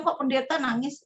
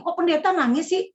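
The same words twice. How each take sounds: First: Said in the usual way. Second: Higher, louder nosy tone; mocking busybody. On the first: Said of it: "Di rumah duka seringkali bilang". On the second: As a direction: wag a finger like a gossip at the funeral. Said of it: "Banyak orang yang".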